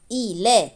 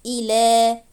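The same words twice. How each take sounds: First: إي لا as two brief syllables, i-la; short fatha vowel. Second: إي لا with the final laa held long and level; long alif vowel. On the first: Teacher adding lam with fatha, short vowels on إي لا. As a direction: keep the la of إي لا short. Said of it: "لام فتحة لا". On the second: Teacher showing written ya said as alif, long ending on إي لا. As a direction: draw out the last aa of إي لا. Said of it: "تكتب ياء وتنطق ألف". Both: Shown as a demonstration.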